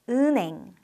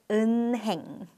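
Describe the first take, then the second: First: The sounds run together across the syllables. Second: Each syllable is sounded out exactly as written. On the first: The speaker calls it right. "pronounced as" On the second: The speaker calls it wrong.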